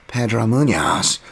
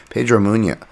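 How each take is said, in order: First: Drawn-out, higher mock English accent; annoying Bisping accent. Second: Said in the usual way. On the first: Podcaster imitating a commentator calling a fighter's name, hammed-up English accent. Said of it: "in, like, an annoying Bisping accent". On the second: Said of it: "I don't know why I always say Munoz".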